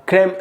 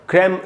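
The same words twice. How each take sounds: No difference in how they are said.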